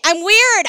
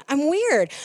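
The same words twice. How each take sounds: First: Loud, high laughing admission; proud declaration. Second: Said in the usual way. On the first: Real, not acted. Owning the nickname to the congregation, loud and proud. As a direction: own it out loud with a grin. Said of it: "Okay, I own it". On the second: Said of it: "I'll take it".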